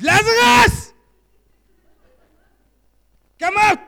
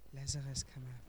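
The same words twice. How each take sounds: First: It is said loudly, as a command. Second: It is said softly and mildly.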